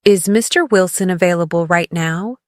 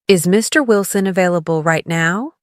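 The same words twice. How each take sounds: The two takes are said the same way.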